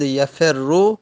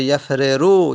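First: "یفر رو" as ya-fer-ru, r held; merged double r. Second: "یفر رو" as yaf-re-ru; unmerged original form. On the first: Teacher giving the merged form, "یفر رو" with geminated r. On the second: Teacher showing the original form, "یفر رو" with each r separate. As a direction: split "یفر رو" into two r syllables. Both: Shown as a demonstration. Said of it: "اصلش بوده".

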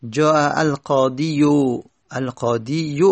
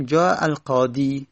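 First: القاضی said with a heavy u-like ending on the final یا; heavy damma ending. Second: القاضی ends on a long i with no vowel after it; the right way, جاء القاضی ending in a long i; correct plain ending. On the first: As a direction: push a damma onto القاضی as qaadiyu. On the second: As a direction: say القاضی as qaadi, no added u. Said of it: "دیگه القاضیو نمیگیم". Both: Shown as a demonstration.

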